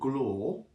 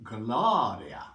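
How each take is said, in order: First: The R is unrolled and the vowel dull. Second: The R is rolled and the vowel bright. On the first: The speaker calls it wrong. "not glor" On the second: The speaker calls it right. "All of the R's should be rolled and vowels made bright"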